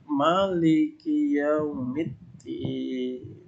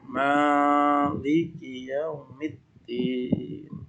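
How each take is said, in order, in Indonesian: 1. Vokal setelah m pertama pendek. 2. Vokal setelah m pertama panjang. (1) "Anda boleh membaca meme-nya pendek" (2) "Boleh juga membaca meme-nya panjang"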